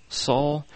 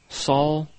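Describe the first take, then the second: Both takes have the same delivery.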